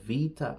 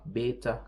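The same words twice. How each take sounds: First: The word begins with a v sound. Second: The word begins with a b sound. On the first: This is how modern speakers say the letter. "in modern Greek, they say" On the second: This is the scholarly reading of the ancient letter. "when I would say"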